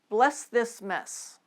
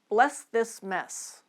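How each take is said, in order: Both takes have the same delivery.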